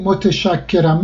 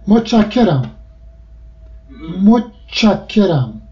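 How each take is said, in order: First: متشکرم in full as mo-te-shak-ke-ram; bookish. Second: متشکرم as motchakkeram, t and sh merged to ch; everyday contracted form. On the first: Linguist showing what nobody says casually, bookish pronunciation. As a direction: keep te and sh separate in متشکرم. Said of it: "مگر اینکه بخواد خیلی لفظ قلم حرف بزنه". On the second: Linguist giving another example, contracted everyday pronunciation. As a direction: run t and sh together as ch in متشکرم. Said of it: "هیچ کس نمیگه متشکرم". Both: Shown as a demonstration.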